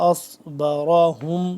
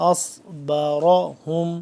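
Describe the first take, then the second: No difference in how they are said.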